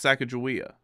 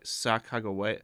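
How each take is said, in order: First: The ending is not pronounced like 'way'. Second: The ending is pronounced like the word 'way'. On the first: "why have I always heard it pronounced" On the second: "Pronounced way as in way"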